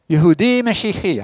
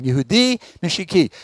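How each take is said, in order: First: Yehudi Mashiach with the stress misplaced; wrong stress. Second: Yehudi Mashiach with the stress put right, the ch throaty; corrected stress. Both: Shown as a demonstration. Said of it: "I got the accent wrong".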